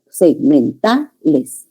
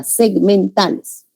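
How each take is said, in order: First: Segmentales very slowly by syllable, TA stressed; stressed syllable shown. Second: Segmentales drawn out slowly, one part after another; segment by segment. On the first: Teacher points out the tonic syllable, segmentales slow with stress on TA. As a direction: break up "segmentales" and lean on "ta". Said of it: "Aquí está la sílaba tónica". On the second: Teacher shows students sounds follow one another, segmentales articulated slowly in sequence. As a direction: say "segmentales" slowly, piece by piece in a line. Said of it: "Así se articula".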